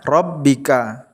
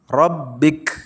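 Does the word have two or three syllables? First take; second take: three; two. First: The word ends with a final vowel. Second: The word ends on a consonant. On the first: The reading continues without stopping. "Saat dibaca wasol" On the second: The reading stops at this word. "saat dibaca wakaf, menjadi Rabbik. K-nya dibaca sukun"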